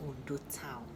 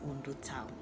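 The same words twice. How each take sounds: The two takes are said the same way.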